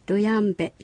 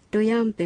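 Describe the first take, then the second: First: The last consonant is a voiced b. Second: The last consonant is a voiceless p. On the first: "ルヤンベという発音になることもあります" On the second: "ルヤンペも"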